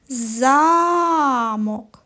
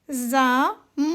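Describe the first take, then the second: First: Замок with a long drawn-out А; Замок, first syllable held, second short; stress on first syllable. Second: Замок split in two, second syllable drawn out; замок with a stretched, stressed final syllable. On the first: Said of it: "поставимо наголос на перший". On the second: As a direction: lean long on the О in замок. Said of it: "наголос стоїть на другому звуковичку О". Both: Shown as a demonstration.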